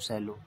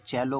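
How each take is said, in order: First: The word begins with an s sound. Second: The word begins with a ch sound. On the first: The speaker calls it wrong. "जबकि हम सुनते चले आ रहे थे" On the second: The speaker calls it right. "C E double L O को चैलो बोलते हैं"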